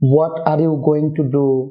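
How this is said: It is said carefully, with 'going to' in full.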